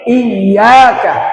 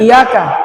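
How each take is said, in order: First: The y sound is pressed and doubled. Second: The y sound is short and single. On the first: The speaker calls it right. "tapi iyaka" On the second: The speaker calls it wrong. "Bukan iyaka"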